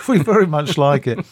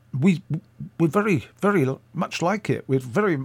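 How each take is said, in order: First: Said in the usual way. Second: Put-on faltering Scottish accent, pitched up; attempted Scottish accent. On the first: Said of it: "I'll go back to English". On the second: Radio man praising her tape, in a badly faked Scottish accent. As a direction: try a Scottish accent and stumble over it. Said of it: "I can't do it. I'll, I'll go back to English".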